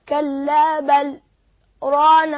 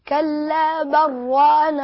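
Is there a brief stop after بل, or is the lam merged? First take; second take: brief stop; merged. First: There is a brief stop on the lam without a breath. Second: The lam merges into the ra with no stop. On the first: "السكت هو الوقف على اللام بدون تنفس" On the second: "هننغم اللام في الراء"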